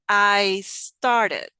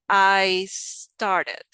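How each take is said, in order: First: The two words are blended together. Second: The same.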